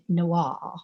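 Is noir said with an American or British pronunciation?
British. It is said with a British pronunciation. "The British say noir"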